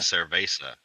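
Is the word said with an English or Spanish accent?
English. It is said with an English-speaker pronunciation. The speaker calls it wrong. "they say"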